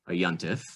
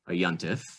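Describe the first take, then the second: First: It is said in Ashkenazic pronunciation. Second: The same.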